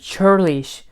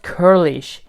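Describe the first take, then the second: First: The word begins with a ch sound. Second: The word begins with a k sound. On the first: The speaker calls it right. "It's churlish" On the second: The speaker calls it wrong. "I thought its pronunciation was curlish, but it's not curlish"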